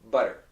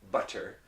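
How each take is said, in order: First: The middle consonant is a quick tongue flap. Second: The middle consonant is a clear, crisp T. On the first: The speaker calls it right. "We say butter" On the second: The speaker calls it wrong. "nobody says butter"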